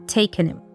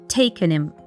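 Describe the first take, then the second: First: The h in him is dropped. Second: The same.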